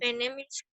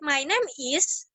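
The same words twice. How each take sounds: First: It is said flat and unclear, without emphasis. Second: It is said clearly, with marked emphasis. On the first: The speaker calls it wrong. "kan gak jelas ya kalau kayak gitu" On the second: The speaker calls it right. "ada penekanan tuh"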